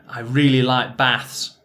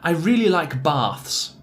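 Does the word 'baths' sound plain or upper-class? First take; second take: plain; upper-class. First: Baths is said in a plain, everyday regional accent. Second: Baths is said in a posh, upper-class accent. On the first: It is the speaker's own natural way of speaking. "like myself" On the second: It suggests a more cultured, higher social class. "which sounds much more cultured and probably more upper class than my natural pronunciation"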